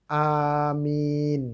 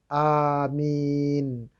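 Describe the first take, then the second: The two takes are said the same way.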